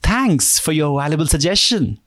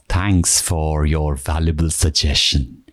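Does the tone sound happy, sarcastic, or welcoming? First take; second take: happy; welcoming. First: The tone sounds happy. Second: The tone sounds welcoming.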